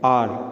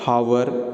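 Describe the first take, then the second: First: The word starts with a vowel, no h sound. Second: The word starts with an audible h sound. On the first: The speaker calls it right. "इसको हम pronounce करते हैं आर" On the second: The speaker calls it wrong. "Not हावर"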